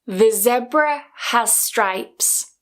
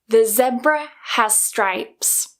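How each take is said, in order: No difference in how they are said.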